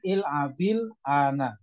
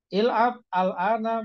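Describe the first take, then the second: First: The words are joined by a linking 'i' sound. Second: The words are said separately without a linking vowel.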